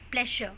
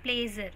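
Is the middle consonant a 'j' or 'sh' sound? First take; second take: sh; j. First: The middle consonant is a 'sh' sound. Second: The middle consonant is a 'j' sound. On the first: The speaker calls it right. "It is प्लेशर" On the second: The speaker calls it wrong. "Mostly लोग क्या pronounce करते हैं?"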